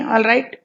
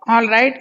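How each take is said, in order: First: It sounds reluctant and grudging. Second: It sounds genuinely pleased and content. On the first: The speaker disagrees but gives up arguing. "although you don't agree, okay, you do whatever you like" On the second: The speaker is truly satisfied. "you really mean that you are satisfied"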